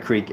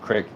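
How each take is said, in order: First: The vowel is a long 'ee' sound. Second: The vowel is a short 'i' sound. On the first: The speaker calls it wrong. "It's not a creek" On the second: The speaker calls it right. "it is crick"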